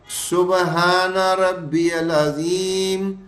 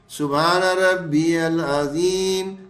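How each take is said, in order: Both takes have the same delivery.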